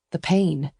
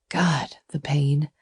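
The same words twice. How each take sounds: First: Said in the usual way. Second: Slow, breathless whisper of pain; whispered anguish. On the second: A narrator's reading. Narrator lingering on her heartbreak, slow whisper. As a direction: let the hurt slip out in a whisper. Repeated phrase, whispered slowly.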